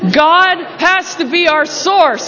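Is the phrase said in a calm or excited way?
excited. It is said in a lively, excited way. "Now say it like it's really exciting"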